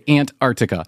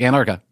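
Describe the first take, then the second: First: The word is said slowly with careful articulation. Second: The word is said fast and run together. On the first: The speaker calls it right. "I always have to pause and say" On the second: The speaker calls it wrong. "you can't say just, like, quickly"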